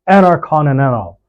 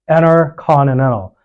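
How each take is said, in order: First: The T after N is silent. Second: The same.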